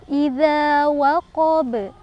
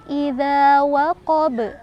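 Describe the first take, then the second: The two takes are said the same way.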